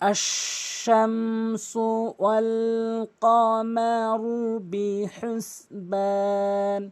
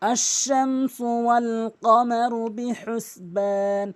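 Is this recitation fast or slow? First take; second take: slow; fast. First: It is recited slowly. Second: It is recited quickly. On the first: "প্রথমে স্লো করে বলবো" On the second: "তারপরে দ্রুত বলবো"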